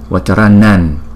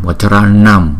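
First: The word ends with a palatal ny sound. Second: The word ends with a closed-lip m sound. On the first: The word is followed by a word starting with c. "Chúng ta không đọc là Vacharanam mà chúng ta đọc là Vacharanan" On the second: The word stands alone. "nếu mà đứng một mình thì chúng ta đọc là Vacharanam"

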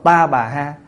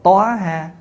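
First: Three syllables, starting with a 'ta' sound. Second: Two syllables, starting with a rounded 'toa' sound. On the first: "có chỗ đọc" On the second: "có chỗ đọc là"

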